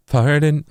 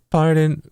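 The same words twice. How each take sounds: First: "Pardon," dipping down then sliding up; dip low to high. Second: "Pardon," sung on one level note; straight pitch. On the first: Explaining synth tuning, showing the dipped scoop version. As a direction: scoop "Pardon," from a lower note up. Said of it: "little dip from lower to higher". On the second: Explaining synth tuning, showing the flat pitch version. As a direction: keep "Pardon," flat, no dip. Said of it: "Instead of going". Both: Shown as a demonstration.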